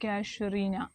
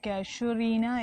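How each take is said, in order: First: The second consonant is a 'sh' sound. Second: The same.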